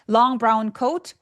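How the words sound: The pitch goes up at the end. The sentence sounds unfinished. The speaker calls it wrong. "long brown coat 올리셨는데"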